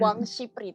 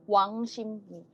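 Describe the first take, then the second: First: The middle consonants sound like p and r. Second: The middle consonants sound like m and n. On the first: This follows the written spelling. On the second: This is how it is actually read. "bacanya Wang Shimni"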